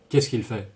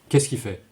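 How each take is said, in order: First: The l sound in il is clearly pronounced. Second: The l sound in il is dropped. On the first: The speaker calls it wrong. "You, you don't say" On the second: The speaker calls it right. "You say ... Il has become i"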